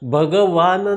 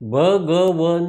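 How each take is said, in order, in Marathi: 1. शेवटच्या अक्षरात दीर्घ स्वर आहे. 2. शेवटच्या अक्षरात ह्रस्व स्वर आहे.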